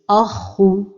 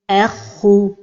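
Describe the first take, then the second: First: The opening hamza is said heavy and emphatic. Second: The opening hamza is said light and plain. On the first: The speaker calls it wrong. "il ne faut pas emphatiser al-hamza comme ceci" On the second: The speaker calls it right. "Donc la prononciation correcte est"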